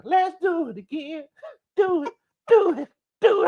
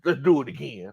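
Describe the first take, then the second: First: Squealed urging. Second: Said in the usual way. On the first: Real, not acted. Urging everyone to repeat the parade, high excited squeal. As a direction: go way up high and stretch each urge.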